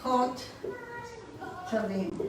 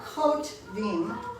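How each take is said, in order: First: It is said in three syllables, a vowel after t. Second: It is said in two syllables, no vowel after t. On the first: The speaker calls it right. "it's kot tavim" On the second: The speaker calls it wrong. "It's not kot vim"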